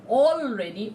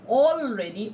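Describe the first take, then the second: First: The L sound is pronounced clearly. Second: The same.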